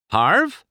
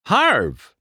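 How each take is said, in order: First: High questioning call, rising. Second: High call, falling at the end. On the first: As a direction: call Harv as if unsure he's there. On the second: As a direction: call Harv firmly into the trailer. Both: A narrator's reading. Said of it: "McQueen called into the trailer".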